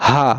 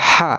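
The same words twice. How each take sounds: First: Said in the usual way. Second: হা with the throat constricted; throat-squeezed HA. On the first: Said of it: "এরকম না". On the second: Shown as a demonstration. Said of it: "একটু গলা চিপে".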